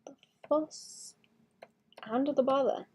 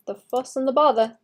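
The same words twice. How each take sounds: First: Breathy whisper, trailing off. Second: Said in the usual way. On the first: Shown as a demonstration. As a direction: whisper it to yourself. Repeats phrase, whispered.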